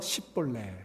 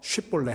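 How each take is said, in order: First: The word begins with a plain 's' sound. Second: The word begins with an 'sh' sound. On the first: The speaker cannot make the 'sh' sound. The speaker calls it wrong. "이 쉬 발음이 안 돼서 씹볼레" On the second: The speaker can make the 'sh' sound. The speaker calls it right. "쉿볼레 하면 살려주고"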